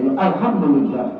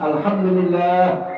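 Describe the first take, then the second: First: The vowel in 'lillah' is cut short. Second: The vowel in 'lillah' is held long. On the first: The speaker calls it wrong. "bisa nggak sah" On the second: The speaker calls it right. "Harus ... Ya panjangin dikit"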